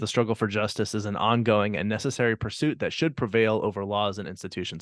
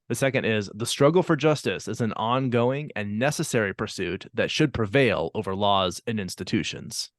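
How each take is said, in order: First: It is said too fast. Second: It is said more slowly.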